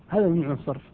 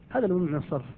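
The two takes are said the same way.

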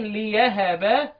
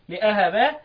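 First: The word has a 'y' sound after 'li'. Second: The word has a glottal stop after 'li'. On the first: "بالياء. تبقى إيه؟" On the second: "وهمز أهب"

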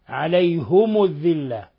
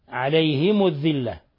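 First: Both the h and the m take u. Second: The h takes i, the m takes u. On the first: "بضم الهاء والميم فيهما" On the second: "بكسر الهاء وضم الميم"

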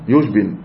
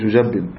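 First: The j is followed directly by a single b. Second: A vowel follows the j and the b is doubled. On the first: The speaker calls it right. "في سكون" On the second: The speaker calls it wrong. "مش"

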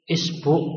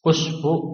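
First: The word begins with an i vowel. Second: The word begins with a u vowel. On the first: "dibaca kasroh" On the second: "dibaca dhammah"

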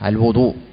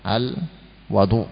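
First: The vowel after the w is a rounded u. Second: The vowel after the w is an open a. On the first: "Dibolehkan pula untuk mendomahnya" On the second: "dengan manfathah huruf wawunya al-wadu"

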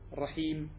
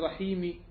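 First: The word ends on a silent final consonant. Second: The word ends with a short final vowel.

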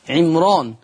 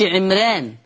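First: The r sound is heavy and full. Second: The r sound is light and thin. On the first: The speaker calls it right. "لورش أوجب التفخيم" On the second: The speaker calls it wrong. "ليس فيه ترقيق. ما قلش عمران"

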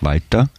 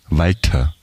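First: The T sound is plain and soft. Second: The T sound hisses with strong aspiration. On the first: This is the first name. "der Vorname ist Walter" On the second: This is the surname spelled with TH. "Wird ein bisschen expressiver, also es zischt förmlich an den Schneidezähnen"

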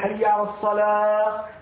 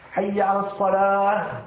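First: The final h sound is left out. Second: The final h sound is clearly pronounced. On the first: The speaker calls it wrong. "ولا يأتي بالهاء" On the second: The speaker calls it right. "لا بد من الإتيان بالهاء"

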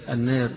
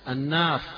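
First: The long vowel leans slightly toward 'e'. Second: The long vowel is a fully open 'a'. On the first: "بالتقليل فيها" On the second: "قراءها مفتوحة"

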